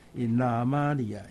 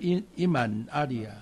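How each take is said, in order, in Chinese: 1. 这两个词连成一个词了。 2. 这两个词是分开说的。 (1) "他把那个阿里亚的阿接续到前面那个字尾，他变成" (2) "发音就本来是"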